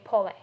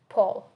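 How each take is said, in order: First: The word ends with an extra final vowel sound. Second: The word ends without a final vowel sound. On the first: The speaker calls it wrong. "We don't say Pole" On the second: The speaker calls it right. "E is silent, so we don't pronounce E. We say Paul"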